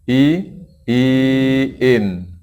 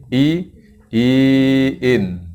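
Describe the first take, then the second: No difference in how they are said.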